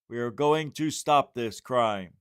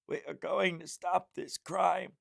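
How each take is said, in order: First: It is said in the speaker's ordinary voice. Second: It is said in a strained, put-on imitation voice.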